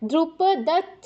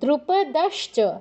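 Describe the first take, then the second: First: The ending is a doubled ch sound. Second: The ending is a sh sound then ch. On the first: The speaker calls it wrong. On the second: The speaker calls it right.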